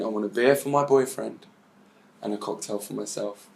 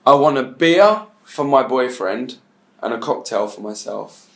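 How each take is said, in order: First: Murmured under the breath; saying it over in her head, fading away; soft inner voice that trails off; quiet, to herself. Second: A measured, deliberate ask. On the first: Retold or imitated. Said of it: "now she's in her head, she's saying". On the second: Shown as a demonstration. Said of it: "I want you to say two things in your language".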